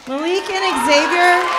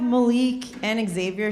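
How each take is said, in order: First: Calling names out, higher and louder. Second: Said in the usual way. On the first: Real, not acted. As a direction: call them out to the room. Calling students to stand.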